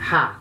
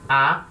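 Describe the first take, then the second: First: The vowel starts with an h-like breath. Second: The vowel starts cleanly with no breath. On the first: "espírito forte" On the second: "espírito fraco"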